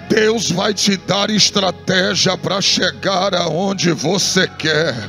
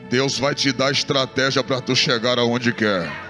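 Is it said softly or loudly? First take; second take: loudly; softly. First: It is said loudly, in a full voice. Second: It is said softly, in a low voice.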